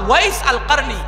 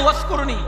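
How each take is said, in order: First: The name is said in full, every syllable clear. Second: The name is shortened, with the middle sounds dropped. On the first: The speaker calls it right. "এটার শুদ্ধ উচ্চারণটা হচ্ছে" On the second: The speaker calls it wrong. "আমরা বলি না ওয়াস করুনি"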